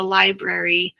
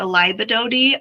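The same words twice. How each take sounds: First: Said in the usual way. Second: "Libadodi", a small child's garbled "library"; imitating a child's cute "Libadodi"; child's mispronunciation. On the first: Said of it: "continued to call the library the Libadodi". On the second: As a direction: say "Libadodi" with toddler-like d sounds in place of the r's. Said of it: "when my daughter continued to call".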